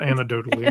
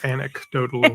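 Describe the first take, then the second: First: The word begins like 'antidote'. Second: The word begins like 'anecdote'. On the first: The speaker calls it wrong. "not anecdotally. Antidote would be if you get bit by a" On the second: The speaker calls it right. "it's anecdotally"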